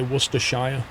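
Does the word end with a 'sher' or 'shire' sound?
shire. The ending is a full 'shire' sound. This is how foreigners say it. "They'll say Worcestershire. They always say Shire"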